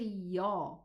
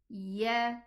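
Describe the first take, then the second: First: The ya is heavy and thickened. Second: The ya is light, not thickened. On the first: The speaker calls it wrong. "when I say ya, I elevated the letter" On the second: The speaker calls it right. "Be careful not to elevate the ya"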